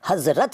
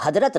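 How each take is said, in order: First: Said in the usual way. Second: हज़रत said "hadrat", d replacing z. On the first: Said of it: "हज़रत कहते हैं". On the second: Shown as a demonstration. Teacher showing what is not said, हज़रत with a d. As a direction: swap the z of हज़रत for d. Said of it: "इसको आप हज़रत नहीं कहते".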